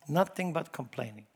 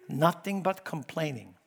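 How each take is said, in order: Both takes have the same delivery.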